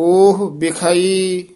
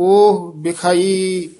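Both takes have the same delivery.

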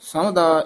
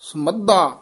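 First: The middle consonant is said loosely and single. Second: The middle consonant is held tight and doubled. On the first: The speaker calls it wrong. "ਇਉਂ ਨਹੀਂ ਕਹਿਣਾ" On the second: The speaker calls it right. "ਕੱਸ ਕੇ ਉਚਾਰਨ ਕਰਨਾ"

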